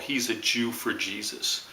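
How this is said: It is said in a sneering, mocking tone. It ridicules the person's faith. "When they say it with that tone of voice, with the look in their eye, it's no longer a compliment"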